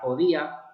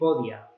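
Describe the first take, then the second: First: The final two vowels are said separately. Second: The final two vowels merge into one syllable.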